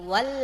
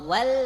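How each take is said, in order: The two takes are said the same way.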